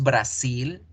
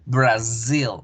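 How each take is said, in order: First: The last syllable has a hissing S sound. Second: The last syllable has a buzzing Z sound. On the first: The speaker calls it wrong. "en español se escribe con S" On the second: The speaker calls it right. "en inglés con Z"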